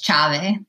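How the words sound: It is pronounced the Venetian dialect way.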